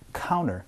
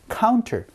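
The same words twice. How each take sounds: First: The t sound in the middle is dropped. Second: The t sound in the middle is pronounced. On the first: "이 T 소리를 날린 counter" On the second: "counter 이라고 얘기를 하기도 하고요"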